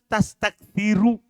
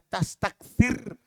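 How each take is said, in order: First: The word ends with a final u vowel. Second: The word ends on a consonant, no final vowel. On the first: The speaker calls it right. "Harus tastakfiru. Dibaca rofa" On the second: The speaker calls it wrong. "tidak cocok dibaca tastakfir disukun"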